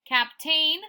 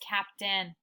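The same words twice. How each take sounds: First: The second syllable is a full 'tain'. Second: The second syllable is reduced and quick. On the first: The speaker calls it wrong. "Remember it's tain" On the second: The speaker calls it right. "But we really don't say captain"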